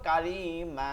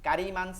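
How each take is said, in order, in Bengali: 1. শব্দটি টানা স্বরধ্বনি দিয়ে শেষ হয়। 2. শব্দটি 'ন' ধ্বনি দিয়ে শেষ হয়।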